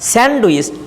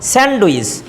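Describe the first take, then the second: First: The d sound is clearly pronounced. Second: The d sound is clearly pronounced.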